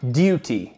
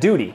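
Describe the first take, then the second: First: A crisp T and a 'yoo' vowel. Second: A soft D-like T and an 'oo' vowel. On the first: "pronounce that T in duty as T, not D" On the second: "instead of"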